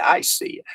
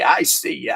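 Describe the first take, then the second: First: Breathy whispered repeat. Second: Said in the usual way. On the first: Shown as a demonstration. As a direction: whisper it back playfully. Repeats greeting two ways.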